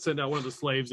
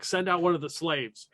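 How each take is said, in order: First: Said in the usual way. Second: Slightly raised call, not a full shout; mild acted yell. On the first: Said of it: "So they say that". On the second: Game master as fighter yelling back across, mild yell. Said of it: "you hear him yell back".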